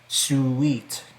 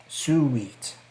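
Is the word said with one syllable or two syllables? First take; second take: two syllables; two syllables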